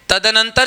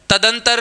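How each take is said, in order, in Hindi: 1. यह शब्द चार अक्षरों में बोला जाता है। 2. यह शब्द तीन अक्षरों में बोला जाता है। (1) "तदनंतर शब्द आपका शुद्ध मिल जाएगा" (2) "तदंतर नहीं"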